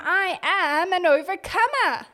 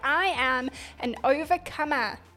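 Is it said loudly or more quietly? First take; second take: loudly; more quietly. First: It is said more loudly. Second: It is said at a moderate volume.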